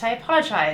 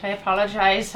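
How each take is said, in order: First: Put-on second try at an Irish accent, a little better; lightly put-on Irish lilt; improved Irish accent. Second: Put-on rough first go at an Irish accent; lightly put-on Irish accent; terrible Irish accent. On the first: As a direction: have a better go at sounding Irish. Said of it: "That's a little better". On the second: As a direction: attempt an Irish lilt, not quite landing it. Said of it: "that's a terrible Irish accent".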